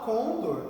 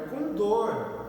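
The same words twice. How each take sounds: First: The stress is on the first syllable. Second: The stress is on the last syllable. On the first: The speaker calls it wrong. "A gente fala condor" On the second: The speaker calls it right. "é condor"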